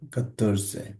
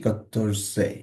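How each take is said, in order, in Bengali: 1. শব্দটি একটি স্বরধ্বনি দিয়ে শেষ হয়। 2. শব্দটি একটি স্বরধ্বনি দিয়ে শেষ হয়।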